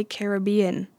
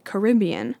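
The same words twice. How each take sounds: First: "Caribbean" said care-uh-BEE-un; own pronunciation. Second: "Caribbean" said kuh-RIB-ee-un; others' pronunciation. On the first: Vlogger giving her own version, Caribbean stressed on BE. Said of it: "I say Caribbean". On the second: Vlogger quoting the poll majority, Caribbean stressed on RIB. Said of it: "Seventy-six percent of people said". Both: Shown as a demonstration.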